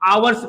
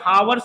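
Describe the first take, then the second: First: The word starts directly with a vowel. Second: The word starts with an h sound. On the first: The speaker calls it right. "आवर्स पढ़ते हैं" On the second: The speaker calls it wrong. "इसको हम क्या हावर्स नहीं पढ़ते"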